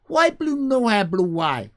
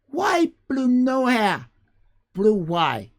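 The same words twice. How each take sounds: First: High, loud broken question; chirpy jumbled future English; future generations speech. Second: High, loud, slow broken words; squeaky mangled future English, words jumbled; future generations speech. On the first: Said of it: "They say that, something like that". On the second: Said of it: "They kind of speak like that". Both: Retold or imitated. Streamer imitating how future generations will talk, squeaky and broken.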